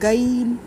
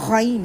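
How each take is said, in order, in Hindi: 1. पहली आवाज़ सादा g है। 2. पहली आवाज़ गले की कंपन के साथ गरगराई जाती है। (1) "गाइन इसको नहीं पढ़े" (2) "ये गाइन है"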